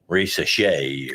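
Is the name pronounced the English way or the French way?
French. The name is said with French sounds. The speaker calls it right. "because it's French. It's probably Risachet"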